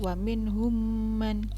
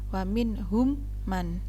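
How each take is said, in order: First: The two m sounds merge into one doubled m. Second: The two m sounds are pronounced separately. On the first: The speaker calls it right. "akan tapi wa minhum man" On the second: The speaker calls it wrong.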